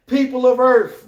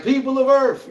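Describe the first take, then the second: First: Loud high alien herald voice; alien announcement. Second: Booming high alien herald voice; alien announcement. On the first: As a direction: proclaim it like an invading soldier. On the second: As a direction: proclaim it like an alien invader. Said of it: "She pulling up like". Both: Retold or imitated.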